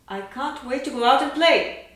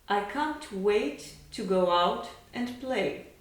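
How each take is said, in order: First: It speeds up and grows louder toward the end. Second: It is spoken at an even, steady pace.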